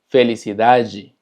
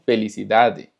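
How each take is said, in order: First: The final syllable sounds like 'ji'. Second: The final syllable sounds like a plain 'de'. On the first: "termina con de, se pronuncia ji" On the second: "habrá lugares donde digan felicidade"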